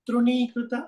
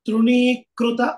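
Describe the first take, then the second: First: The 'kṛ' syllable is said plainly, without stress. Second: The 'kṛ' syllable is said with stress. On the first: The speaker calls it right. "సరళంగా" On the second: The speaker calls it wrong. "తృణీకృత అనకూడదు"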